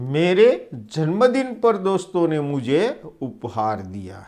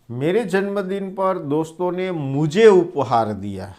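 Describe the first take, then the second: First: The stress is on जन्मदिन. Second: The stress is on मुझे.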